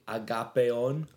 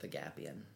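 First: The name is said with a Greek pronunciation. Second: The name is said with an English pronunciation. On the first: This is the original foreign pronunciation. "if I pronounced it, like, the right way, it would be Agapion" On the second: This is the assimilated everyday pronunciation. "So my family sort of goes with Agapion"

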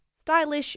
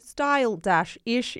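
First: The word is said quickly as one unit. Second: The word is said slowly, parts drawn out.

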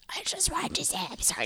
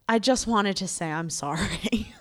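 First: It is said in a gruff Batman-like voice. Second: It is said in a normal voice.

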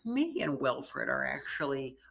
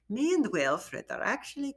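First: It is said in the speaker's ordinary accent. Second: It is said in a put-on German accent. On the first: The speaker calls it wrong. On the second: The speaker calls it right.

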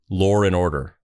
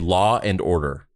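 First: An R sound links law and and. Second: No R sound links law and and. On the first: This is how it's said in the UK or Australia. "in the UK or Australia, they say law and order. They add an R between W and A" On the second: This is how it's said in the United States. "In the United States, we say law and order"

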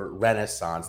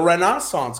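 First: It uses a plain American pronunciation. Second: It imitates a British or European pronunciation. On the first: It is how people say it locally. The speaker calls it wrong. "That's how, of course, we say it over here" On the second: It copies how the European announcers say it. The speaker calls it right. "I just can't make it sound like the guys or the announcers over on the DP World Tour do. But I try my best"

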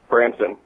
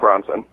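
First: The first vowel sounds like the 'a' in 'bran'. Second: The first vowel sounds like the 'o' in 'bronze'. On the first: The speaker calls it right. "Branson, not Bronson" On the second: The speaker calls it wrong. "not Bronson"

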